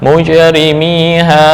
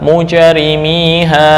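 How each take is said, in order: The two takes are said the same way.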